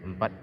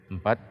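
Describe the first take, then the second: Both takes have the same delivery.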